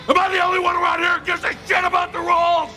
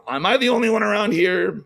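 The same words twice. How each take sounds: First: Furious shout. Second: Said in the usual way. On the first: Retold or imitated. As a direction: bellow it like an outraged bowler. Walter meme quote shouted.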